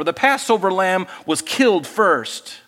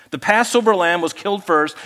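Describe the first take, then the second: First: Slow, with killed leaned on and falling; stress on killed. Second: "Passover" given the main weight, even pace; stress on Passover. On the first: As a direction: press down on "killed" slowly. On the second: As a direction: lift "Passover" as the key word. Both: Shown as a demonstration.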